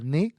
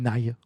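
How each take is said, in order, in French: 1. On le prononce à la parisienne, comme 'nez'. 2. On le prononce à la manière locale du Sud-Ouest, 'naï'. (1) "Les Parisiens, ou en tout cas au-dessus de R-sur-Adour, on dira Nez" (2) "Chez nous, on dit Naï"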